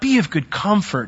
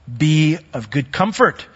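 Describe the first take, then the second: First: It is said softly, like gentle reassurance. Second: It is said firmly, like a command. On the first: The listener is simply being soothed. The speaker calls it wrong. "it's not be of good comfort" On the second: The listener must take courage. The speaker calls it right. "I say it like that because"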